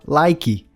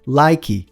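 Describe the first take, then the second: The two takes are said the same way.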